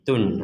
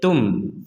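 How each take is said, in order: First: The syllable ends with an n sound. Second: The syllable ends with an m sound. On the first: "Awalnya T U N jadi tun" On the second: "sekarang menjadi tum"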